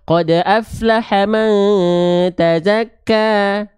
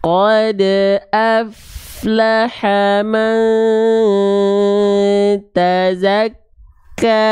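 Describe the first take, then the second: First: It is recited fast. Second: It is recited very slowly.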